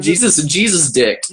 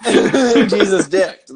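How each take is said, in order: First: Laughing. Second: Slow, loud, through laughter; laughing hard. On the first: Punchline repeated laughing. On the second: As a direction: drag it out while cracking up. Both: Real, not acted.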